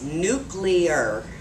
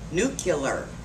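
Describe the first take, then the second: First: The middle is said as 'klee'. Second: The middle is said as 'kyuh'. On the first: The speaker calls it right. "The correct pronunciation is" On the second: The speaker calls it wrong.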